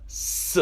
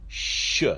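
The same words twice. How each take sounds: First: "S" as a hissed "suh"; left-dot Shin sound. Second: "Sh" as a hushing "shuh"; right-dot Shin sound. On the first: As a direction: sound out "S", not "Sh". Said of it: "left side of the letter". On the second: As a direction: sound out "Sh" with a short schwa. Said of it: "on the right side of the letter". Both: Shown as a demonstration.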